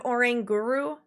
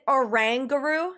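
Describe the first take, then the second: First: Oranguru with long "ay", oh-RAIN-guru; rejected pronunciation. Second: Oranguru with short "a", oh-RANG-guru; confirmed pronunciation. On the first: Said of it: "instead of Oranguru". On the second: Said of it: "they did Oranguru". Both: Shown as a demonstration.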